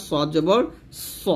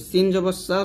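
First: সদ জবর স with a thick, heavy স; full, heavy স; heavy sad. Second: সিন জবর সা with a thin, light স; light sibilant on সা; thin sin. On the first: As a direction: round and thicken the স. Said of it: "সদ হচ্ছে মোটা হরফ". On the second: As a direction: keep the সা thin and forward. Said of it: "সিন হচ্ছে পাতলা হরফ". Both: Shown as a demonstration.

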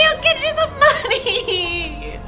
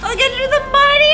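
First: Slow sobbing plea; crying plea. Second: Frantic. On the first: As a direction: drag it out, laughing through tears. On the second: Frantic fast shout. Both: Acted.

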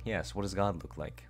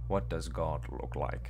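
First: Breathy creepy whisper; horror whisper. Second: Slow, hollow horror-game voice; spooky slow read. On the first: Repeating the game's question, whispered and eerie. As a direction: whisper it like a ghost. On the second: Reading the game's eerie question, slow and hollow. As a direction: drag the words out like a creepy narrator. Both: Pretend. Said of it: "horror maxing".

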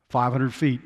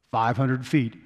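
The two takes are said the same way.

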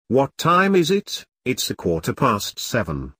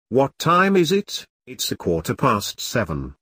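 No difference in how they are said.

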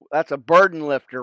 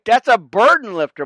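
First: Said in the usual way. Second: Higher and louder, stressing "a burden lifter"; emphatic repeat. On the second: Real, not acted. Preacher driving home his line to friends, louder and higher. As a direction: punch "That's a burden lifter" up high the second time.

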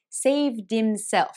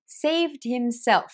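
First: Slow "saved himself" with H silent, linked as saved-imself; dropped H. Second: Said in the usual way. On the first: Shown as a demonstration. Teacher demonstrating the dropped H. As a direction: glide straight into "imself". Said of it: "に聞こえます". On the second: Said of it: "ではなく".

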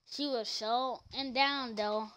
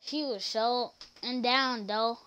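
The two takes are said the same way.

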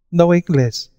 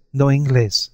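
First: Put-on high, lisping Spanish-accented No Inglés, said noh een-GLAYS; lisped foreign English. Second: Lisped foreign English. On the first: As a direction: lisp No Inglés like a Spanish woman with little English, pitched high. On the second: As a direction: echo no Inglés, lisping like a Spanish woman. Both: A narrator's reading. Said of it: "she lisped".

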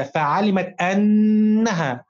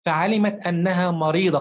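First: أنها drawn out very slowly with a long held doubled n, ann-naha, louder; doubled nun. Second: Said in the usual way. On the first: Shown as a demonstration. Teacher showing pupils the shadda in أنها, very slow with a held double n. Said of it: "النون مشددة أو مضاعفة عليها شدة". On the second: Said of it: "النون مشددة أو مضاعفة".

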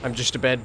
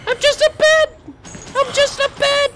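First: Said in the usual way. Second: Very high, loud silly squeak; squeaky falsetto. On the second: Pretend. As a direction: squeal it like a cartoon. Pretends to be a bed.

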